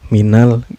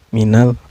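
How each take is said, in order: Both takes have the same delivery.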